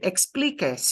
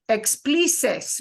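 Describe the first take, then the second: First: The consonant before the last vowel is a k. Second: The consonant before the last vowel is an s. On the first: The speaker calls it right. "you said it right" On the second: The speaker calls it wrong. "It can only make a s, s, s sound"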